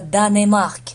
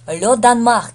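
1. Между n и m звучит гласный. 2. Между n и m гласный не звучит. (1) "не читается Данемарк" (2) "То есть «э» здесь не звучит"

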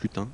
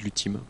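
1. Le nom se termine par une voyelle nasale, sans 'm'. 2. Le nom se termine par un son 'm' net. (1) "mais se prononce Lutin" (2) "beaucoup de gens qui disent Lutim. C'était pas le but"

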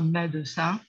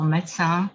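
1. Le d reste sonore devant le c. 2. Le d devient sourd devant le c. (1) "Dans le sud de la France, on peut entendre médecin" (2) "en français standard aujourd'hui, on entend médecin"

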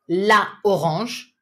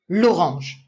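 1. La voyelle de l'article prononcée entièrement devant orange. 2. La voyelle de l'article est supprimée et liée à orange. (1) "instead of saying la orange" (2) "you'd say l'orange"

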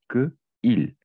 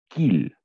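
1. Les deux voyelles sont conservées, comme deux mots séparés. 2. La première voyelle disparaît, et les deux mots se joignent en une seule syllabe. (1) "il y a deux voyelles ensemble" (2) "Le phénomène l'élision"

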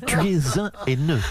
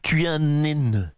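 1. Aucun son N ne fait la liaison avec 'haineux'. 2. Un son N fait la liaison avec 'haineux'. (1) "on ne fait pas la liaison avec le H" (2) "Un haineux avec un grand N"

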